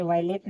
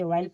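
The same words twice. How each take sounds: First: "वायलेट" with a final t; T sounded. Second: "वाइल" ending in l, no t; silent-t reading of "वाइल". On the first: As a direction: say "वायलेट" with the -let ending. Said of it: "इसे वायलेट नहीं". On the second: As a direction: say "वाइल" with the et dropped. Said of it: "इसे वाइल पढ़ेंगे". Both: Shown as a demonstration.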